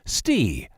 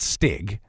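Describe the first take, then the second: First: The name ends in a vowel, no g. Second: The name ends with a hard g sound. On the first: The speaker calls it right. "This fella's name is pronounced Stee" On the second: The speaker calls it wrong. "not Stig"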